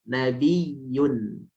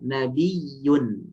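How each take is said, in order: First: The y sound is held long and doubled. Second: The same.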